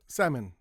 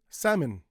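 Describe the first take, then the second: First: It is said with English sounds. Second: The same.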